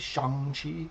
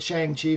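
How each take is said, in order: First: The name has a more native pronunciation. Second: The name has an Americanized pronunciation. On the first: The speaker calls it right. "It's actually Shang-Chi" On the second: The speaker calls it wrong. "that's how us dumb, dirty Americans would pronounce it"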